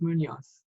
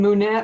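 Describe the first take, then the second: First: The last syllable has an 'oh' vowel. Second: The last syllable has an 'eh' vowel. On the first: This is the name's actual form. The speaker calls it right. "I think it's Munoz" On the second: This is how the other person habitually says it. The speaker calls it wrong. "You call him Munez"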